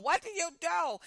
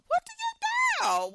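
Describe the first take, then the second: First: Said in the usual way. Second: Much higher, slow, drawn-out despairing question; exasperated plea. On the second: Real, not acted. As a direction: throw it up to the heavens, at a loss.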